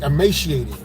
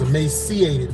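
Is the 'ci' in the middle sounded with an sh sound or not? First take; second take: sh; no sh. First: The middle 'ci' is sounded as sh. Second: The middle 'ci' is sounded without sh. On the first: The speaker calls it right. "it's actually a sh" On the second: The speaker calls it wrong. "I used to think it was emaciated"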